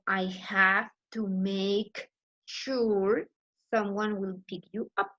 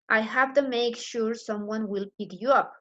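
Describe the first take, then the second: First: Each word is said fully and separately. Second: The words are reduced and run together. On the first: "Instead of"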